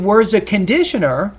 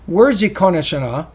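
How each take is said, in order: First: The stress in conditioner falls on the usual syllable. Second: The stress in conditioner falls on an unusual syllable. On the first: The listener understands the word at once. The speaker calls it right. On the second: The listener cannot understand the word. The speaker calls it wrong.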